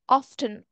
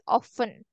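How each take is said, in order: First: The T sound in the middle is pronounced. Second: The T sound in the middle is silent. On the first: "often sometimes is pronounced with the T" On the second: "or some people say often"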